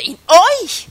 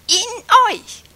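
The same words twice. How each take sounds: First: Euch made the loud peak, in left light; stress on euch. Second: In said high and loud, euch falling; stress on in. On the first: Preacher to congregation, stress shifted to euch. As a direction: move the weight onto euch. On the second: Preacher to congregation, leaning on In. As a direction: punch In, let euch drop. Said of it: "Oder die Betonung auf in". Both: Shown as a demonstration.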